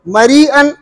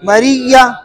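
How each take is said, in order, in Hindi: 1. शब्द के अंदर हमज़ा सुनाई देता है। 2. हमज़ा की जगह दोहरी y की आवाज़ सुनाई देती है।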